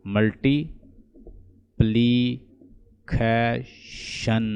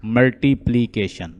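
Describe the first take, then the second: First: "मल्टीप्लिकेशन" very slowly and softer, a pause between parts; syllable by syllable. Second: Said in the usual way. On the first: Shown as a demonstration. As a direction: stretch "मल्टीप्लिकेशन" into मल्टी, प्लि, के, शन. Teacher splits word into syllables.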